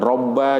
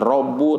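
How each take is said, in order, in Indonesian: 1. Kata itu diakhiri vokal a. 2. Kata itu diakhiri vokal u.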